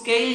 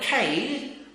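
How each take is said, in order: First: The k is said without a puff of breath. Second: The k is said with a puff of breath. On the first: The speaker calls it wrong. "इसको केल नहीं बोले" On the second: The speaker calls it right.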